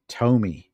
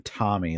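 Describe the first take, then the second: First: Tomy as TOE-mee; corrected long-o pronunciation. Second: Tommy as TAH-mee; American short-o pronunciation. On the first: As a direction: say Tomy with a long "oh", falling at the end. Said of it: "pronounced Tomy". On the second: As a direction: say Tommy like the American first name, with an "ah" vowel. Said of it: "all Americans would say it". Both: Shown as a demonstration.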